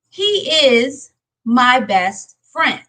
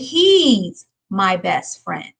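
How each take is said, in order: First: The two words are said separately in full. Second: The two words are joined into one syllable. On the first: The speaker calls it wrong. "We don't want to use he is" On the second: The speaker calls it right. "We want to make it a contraction"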